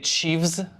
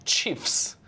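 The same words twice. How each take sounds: First: The word ends with a v sound. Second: The word ends with an f sound. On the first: The speaker calls it wrong. "We don't say" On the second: The speaker calls it right. "we say"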